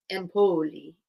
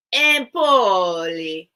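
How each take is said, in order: First: Empoli with flat even stress; trying a pronunciation. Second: Empoli drawn out very slowly and louder; trying a pronunciation. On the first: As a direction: say Empoli plainly, testing it. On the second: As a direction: stretch out Empoli, weighing each syllable. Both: Shown as a demonstration. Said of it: "where the accent's supposed to be".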